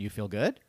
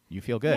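First: It rises at the end like a question. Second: It falls at the end like a statement.

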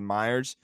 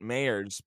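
First: The first syllable sounds like 'my'. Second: The first syllable sounds like 'may'. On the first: This is a reading based on the spelling. "I just phonetically like to say Myers" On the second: This is how the namesake said his own name. "That's how he pronounced it"

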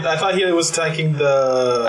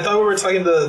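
First: It is said in the speaker's natural voice. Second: It is said in a put-on character accent.

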